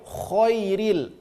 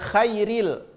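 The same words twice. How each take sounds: First: The first vowel sounds thick, like o. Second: The first vowel sounds thin, like a. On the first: The speaker calls it right. "tapi khairil" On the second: The speaker calls it wrong. "Bukan khairil"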